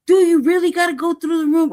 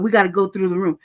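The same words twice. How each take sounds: First: Higher and louder, hitting DO; real exasperation; indignant retort. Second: Lower, dull officious quote; mock guard voice, lightly done; mimicking the guard. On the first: Real, not acted. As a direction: throw the line back at them in disbelief. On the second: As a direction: parrot the guard's line flatly. Quoting guard, then mocking it.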